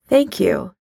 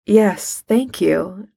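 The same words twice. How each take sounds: First: Said in the usual way. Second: Lightly voiced refined gentleman; understated deep, cultured voice. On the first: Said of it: "he says to her". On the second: A narrator's reading. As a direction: answer with a hint of deep refinement. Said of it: "says a deep, refined voice".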